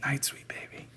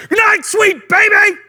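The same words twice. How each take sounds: First: Hushed bedtime whisper; gentle whisper. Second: High, slow, full-force shout; comic yell. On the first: Parent tucking baby in at night, softly whispered. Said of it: "A whisper is way better". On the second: Parent tucking baby in at night, comically yelling. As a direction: bellow a lullaby line absurdly loud. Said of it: "you can't yell". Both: Acted.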